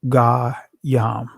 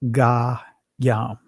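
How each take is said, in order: No difference in how they are said.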